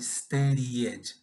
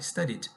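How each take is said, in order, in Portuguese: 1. A palavra é falada com três sílabas. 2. A palavra é falada com duas sílabas. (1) "você acrescenta mais uma sílaba" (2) "É assim dessa forma que fala"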